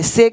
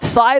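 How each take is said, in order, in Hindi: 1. स्वर 'ay' जैसा सुनाई देता है। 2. स्वर 'eye' जैसा सुनाई देता है। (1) "से कहते हैं" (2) "साय नहीं कहते"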